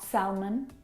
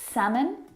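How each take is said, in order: First: The L sound is pronounced. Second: The L sound is not pronounced. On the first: The speaker calls it wrong. "not salmon" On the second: The speaker calls it right. "have a silent letter L in them. Words like salmon"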